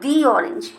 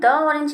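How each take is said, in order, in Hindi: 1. 'The' को लंबी 'ee' ध्वनि के साथ बोलते हैं। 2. 'The' को छोटी 'uh' ध्वनि के साथ बोलते हैं। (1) "हम बोलेंगे दी ऑरेंज" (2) "द ऑरेंज नहीं बोलेंगे"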